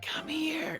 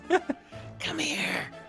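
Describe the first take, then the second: First: It is a soft, close, intimate whisper. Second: It is a loud, carrying whisper. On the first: "In a little like closer whisper" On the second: "way too loud whisper"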